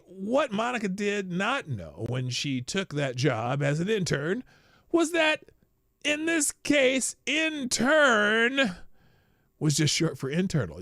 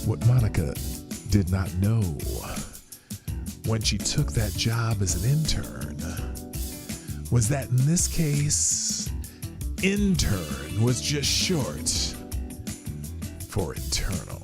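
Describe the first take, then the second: First: It is read in a plain voice. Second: It is read in a sultry, sexy voice.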